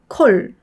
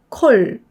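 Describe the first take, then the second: No difference in how they are said.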